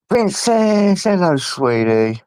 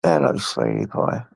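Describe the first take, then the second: First: Cooing high at the dog Princess; doting pet voice. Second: Much lower, gruff playful greeting to the dog; low jokey hello to the dog; deep pet voice. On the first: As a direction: coo it up high like greeting a puppy. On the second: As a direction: drop the voice way down for a silly dog greeting. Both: Real, not acted.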